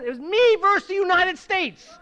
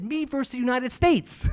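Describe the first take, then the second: First: "me" hit high and loud, the whole phrase raised; correcting himself, punching "me" against a country; stress on me. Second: Said in the usual way. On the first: Shown as a demonstration. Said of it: "It wasn't me ver".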